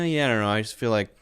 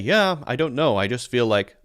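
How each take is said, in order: First: The words are fast and mushed together. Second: The words are slow and clearly separated. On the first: "someone's talking quickly, but they kind of mush all the words together" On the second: "They're not going to say"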